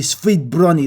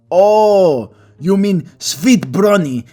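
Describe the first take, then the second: First: "sweet brownie" with a hard, clipped Greek B; repeating "sweet brownie" in her Greek accent; mockingly echoing the cashier's Greek "sweet brownie"; Greek accent mimicked. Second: Put-on slow, high, Greek-accented "sweet brownie" with a hard ending. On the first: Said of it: "how she pronounced it". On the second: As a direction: mimic a Greek cashier saying "sweet brownie". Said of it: "weird how she pronounced it".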